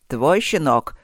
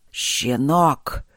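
First: Louder question, ТВОЙ punched and falling after it; forceful query with the weight on ТВОЙ; pointed question. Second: Drawn-out, hissing contempt; venomous hiss at a young attacker; hissed insult. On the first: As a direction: hit ТВОЙ hard as you demand an answer. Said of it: "спросил Итхиркас". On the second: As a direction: hiss ЩЕНОК slowly through the teeth. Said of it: "прошипел Итхиркас". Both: A narrator's reading.

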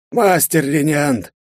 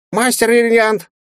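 First: High, drawn-out polite address; a genial rector choosing words; slow courteous rector. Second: Very high, tiny squeaking voice; squeaky baby dragon. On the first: Rector begins, slowly. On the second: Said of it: "пропищал Кроха". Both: A narrator's reading.

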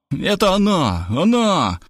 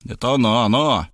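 First: Frightened cry. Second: Said in the usual way. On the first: A narrator's reading. Friend panics at the doorbell, high frightened cry. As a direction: squeal it out in alarm. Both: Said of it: "испугался Заславский".

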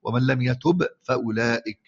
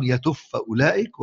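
First: ومن لم يتب فأولئك بإظهار الباء واضحة قبل الفاء; انطق باء يتب ظاهرة ثم فأولئك; إظهار الباء. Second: يتب فأولئك بإدغام الباء في الفاء فتُنطق فاء مشددة; اقرأ يتب فأولئك بالإدغام بلا باء ظاهرة; إدغام الباء في الفاء. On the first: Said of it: "وبالإظهار". (نطق يتب فأولئك بالإظهار) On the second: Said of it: "ده هذا بالإدغام". (نطق يتب فأولئك بالإدغام) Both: Shown as a demonstration.

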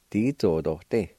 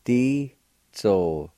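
First: Said in the usual way. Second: Di-zo-to-ti drawn out slowly, each syllable separate; slow careful model of Di-zo-to-ti; slow demonstration. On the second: Shown as a demonstration. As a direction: say Di-zo-to-ti slowly for the learner.

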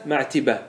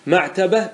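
First: معتبة said "ma'tiba", with an i, falling; kasra form. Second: معتبة said "ma'taba", with an a; fatha form. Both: Shown as a demonstration. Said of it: "ما ورد بالوجهين".

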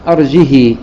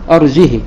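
First: "أرجه" without hamza, long final ii; kasra with silah. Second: "أرجه" without hamza, short final i; short kasra on ha. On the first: Teacher demonstrating Warsh's reading, "أرجه" with lengthened final i. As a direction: say "أرجه" as arjihii, drawing out the last vowel. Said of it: "وكسر الهاء مع الصلة". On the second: Teacher demonstrating Qalun's reading, "أرجه" with short unlinked i. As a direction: say "أرجه" as arjihi, last vowel short. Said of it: "مع كسر الهاء بدون صلة". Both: Shown as a demonstration.

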